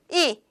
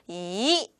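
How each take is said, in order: First: It is short and strong with a falling pitch. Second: It is said with a rising pitch. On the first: "이렇게 짧고 강하게 표현하면" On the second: "이성으로 올려서 읽으면 돼요"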